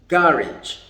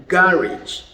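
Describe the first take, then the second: First: It is said with a British pronunciation. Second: The same.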